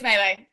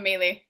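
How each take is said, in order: First: The word does not sound like muesli. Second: The word sounds like muesli. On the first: The speaker calls it right. "It's always melee" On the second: The speaker calls it wrong. "It's never melee. That sounds like muesli"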